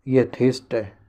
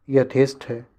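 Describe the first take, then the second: No difference in how they are said.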